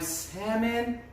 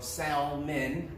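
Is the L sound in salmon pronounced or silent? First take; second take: silent; pronounced. First: The L sound is silent. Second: The L sound is pronounced.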